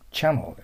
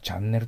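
First: It is said English-style, ending in a dark 'l'. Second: It is said as Japanese katakana 'chan-ne-ru'. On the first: The speaker calls it right. "チャノーです。" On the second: The speaker calls it wrong. "パッと見たらチャンネルと読みますよね。ダメよ。"

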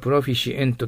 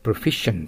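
First: It is said with separate Japanese-style syllables. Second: It is said with English sounds and syllables. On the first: The speaker calls it wrong. "これをプロフィシエントと呼んでしまっては、リスニングの時にアウトですよ。" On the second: The speaker calls it right. "proficient と発音してください。"

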